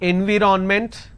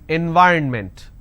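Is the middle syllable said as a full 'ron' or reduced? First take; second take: full ron; reduced. First: A full 'ron' syllable is said in the middle. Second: The middle is reduced, without a full 'ron'. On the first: The speaker calls it wrong. "the mistake that you end up doing is you end up pronouncing N V ron ment" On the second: The speaker calls it right. "N Y R N ment. So this is the correct pronunciation"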